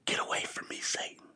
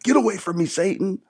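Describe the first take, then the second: First: It is said quietly, almost whispered. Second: It is said loudly and forcefully. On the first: The speaker calls it wrong. "He probably didn't say something like" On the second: The speaker calls it right. "really loud"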